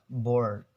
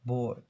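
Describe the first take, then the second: First: "board" with a clearly sounded R; "board", r curled and audible; American R pronounced. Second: "board" with the r dropped, like "bawd"; "board" the British way, r left silent. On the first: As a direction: say "board" with a full American r before the d. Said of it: "they pronounce the R sound". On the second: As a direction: say "board" with a long vowel and no r. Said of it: "avoid to pronounce the R". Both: Shown as a demonstration.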